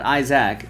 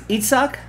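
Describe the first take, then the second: First: The name is said like English 'Isaac'. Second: The name is said like 'Itzhak'. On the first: The speaker calls it wrong. "not Isaac" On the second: The speaker calls it right. "Isaac is Itzhak"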